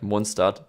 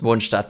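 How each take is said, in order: First: The name is said with English pronunciation. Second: The name is said with German pronunciation. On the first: The speaker calls it wrong. "I automatically want to pronounce it English and go like Mondstadt" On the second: The speaker calls it right. "the proper way to pronounce it is Mondstadt because it's German"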